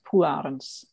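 It is said the Dutch way, with a rolled R. "or in Dutch, just Polarens. And then you have to roll the R quite a lot"

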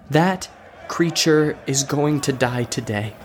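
It is said firmly, with conviction.

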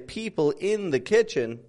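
Every word, including 'in' and 'the', is stressed. The speaker calls it wrong. "I don't make them each stressed"

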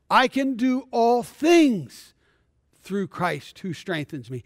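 The word 'things' is stressed.

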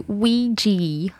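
The word has an American pronunciation.

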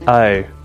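It is said in an Australian accent. "In Australian, it goes O"

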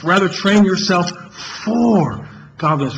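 The word "for" carries the main stress.

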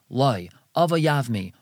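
There is a pause after the first word. He refuses, but she wants to marry him. The speaker calls it wrong. "so then it's going to sound like he's saying, no, I want him to marry me"

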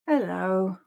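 The word sounds sad.

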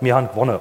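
It is said in a Baden dialect.

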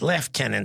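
It uses the British pronunciation of the word. The speaker calls it wrong. "not Lieutenant"

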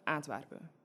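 It is said with an Antwerp accent.

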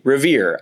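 It is said with the final r sounded. "in my Midwestern American English, I say Revere. I produce my post-vocalic Rs"

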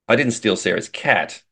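The stress is on the word 'cat'.

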